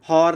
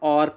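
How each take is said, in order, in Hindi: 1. यह शब्द 'h' की आवाज़ से शुरू होता है। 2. यह शब्द स्वर की आवाज़ से शुरू होता है। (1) "हम हॉर नहीं पढ़ते हैं" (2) "एच क्या है, साइलेंट है"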